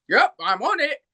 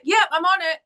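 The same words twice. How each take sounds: First: Mimicked reply in an English accent; silly English accent. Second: Said in the usual way. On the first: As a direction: echo it as a silly English character. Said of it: "slip into these silly English characters". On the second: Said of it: "And I'm like".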